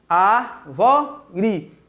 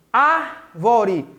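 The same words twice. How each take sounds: First: "Árvore" in three separate beats, ár, vo, re; "Árvore" slightly lower, pausing between all three syllables. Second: "Árvore" as "ár", short pause, then "vore"; "Árvore" in two careful parts; split after first syllable. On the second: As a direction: set off the "Ár" of "Árvore". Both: Shown as a demonstration. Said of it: "Vamos fazer a separação silábica".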